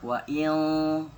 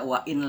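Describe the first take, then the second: First: "wa in" with the n held as a blurred hum; slow, drawn-out "in" in "wa in", n hidden; veiled n. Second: "wa in" ending on a plain, short n; unblended n in "wa in"; clear n. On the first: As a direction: let "wa in" fade into a long nasal. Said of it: "dibaca samar". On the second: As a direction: say "wa in" with the n fully pronounced. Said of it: "nggak dibaca wa in lagi". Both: Shown as a demonstration.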